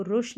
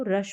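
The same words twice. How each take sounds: First: रुश with a short "oo", like "push"; wrong pronunciation. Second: रश with a short "uh" vowel; correct pronunciation. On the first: Teacher warning learners against a wrong reading of rush, mispronounced. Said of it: "इसको रुश नहीं पढ़ेंगे". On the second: Teacher giving learners the right reading of rush, correctly pronounced. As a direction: say रश with the vowel of "cut". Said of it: "यू का उच्चारण यहाँ पर अ हो रहा है". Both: Shown as a demonstration.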